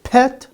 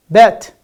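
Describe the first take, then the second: First: "pet" with a puffed P; questioning "pet", rising, aspirated P; clear P sound. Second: Loud "Bet" with voiced B; punched "Bet" with no puff of air; clear B sound. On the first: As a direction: offer "pet" as the P choice against bet. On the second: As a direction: quiz word "Bet", B not P. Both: Shown as a demonstration. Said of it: "Is it pet?".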